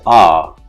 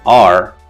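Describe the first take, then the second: First: The word ends without an r sound. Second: The word ends with an r sound. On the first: "he says ah" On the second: "in the word are"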